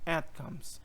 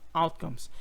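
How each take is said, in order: First: The first vowel sounds like 'eh'. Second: The first vowel sounds like 'ow'. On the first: The speaker calls it right. "Ele vai falar tipo um é, quase um outcomes" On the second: The speaker calls it wrong. "Percebe que eu falei outcomes"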